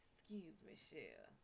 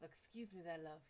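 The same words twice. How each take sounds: First: Soft, low Cajun drawl imitation; Cajun accent. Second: Soft, smooth British accent imitation. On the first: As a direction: quietly play the Cajun charmer. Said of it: "Mister [name] come around and he's like". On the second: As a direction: quietly play the British charmer. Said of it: "[name] come up with his real voice".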